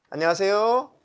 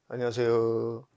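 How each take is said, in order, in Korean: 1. 끝의 톤을 낮추지 않고 또렷하게 유지합니다. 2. 끝이 낮은 톤으로 흐려집니다.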